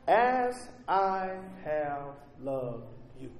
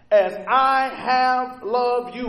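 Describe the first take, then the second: First: "As I have loved you" slow and hushed, weight on "As"; quiet, slow. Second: "as I have loved you" slow and loud, "I" stressed hard. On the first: Pastor pointing the church to the key phrase, slow and hushed. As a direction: breathe the phrase out softly. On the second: Preacher proclaiming the verse to the congregation, slow and loud. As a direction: drive the line out with force on "I". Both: Shown as a demonstration. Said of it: "The emphasis is placed in the latter".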